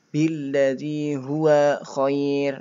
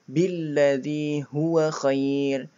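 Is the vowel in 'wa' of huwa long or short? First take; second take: long; short. First: The vowel of wa is drawn out long. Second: The vowel of wa is short and quick. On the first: The speaker calls it wrong. "bukan ... ini keliru ya" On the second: The speaker calls it right. "wa-nya dibaca pendek ... temponya lebih cepat"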